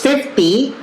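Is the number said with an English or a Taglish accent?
Taglish. It is said longer, with a Taglish accent. "The Taglish version is fifty"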